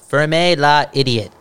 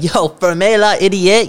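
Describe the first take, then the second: First: "Ferme la idiot" said slowly in French. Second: Mock French retort. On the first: Shown as a demonstration. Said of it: "I'll just do it". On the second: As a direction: toss "ferme la idiot" back slowly. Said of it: "I'm just like".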